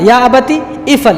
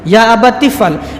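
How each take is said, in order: First: The second word starts separately with its own vowel. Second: The two words run together without a break. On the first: The speaker thought a little before answering. "अलिफ आता" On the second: The answer came at once, without any thinking. "काल या अबतिफल"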